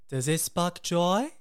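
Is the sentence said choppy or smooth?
smooth. The words flow smoothly together.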